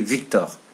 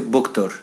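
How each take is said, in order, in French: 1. Le nom commence par un son V. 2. Le nom commence par un son B. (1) "Et dans le nord, ils disaient Victor" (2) "dans le sud par exemple, ils prononçaient Boktor"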